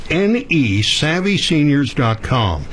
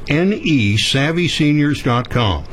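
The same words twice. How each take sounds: The two takes are said the same way.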